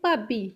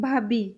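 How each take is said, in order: First: The word has a Punjabi pronunciation. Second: The word has a Hindi pronunciation. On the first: "Punjabi में बोलते हैं" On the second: "Hindi में हम बोलते हैं"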